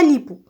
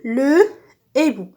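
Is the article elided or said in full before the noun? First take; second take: elided; in full. First: The article is elided and linked to the noun. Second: The article is said in full, without linking. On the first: The speaker calls it wrong. "On ne dit pas l'hibou" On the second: The speaker calls it right. "on dit le hibou"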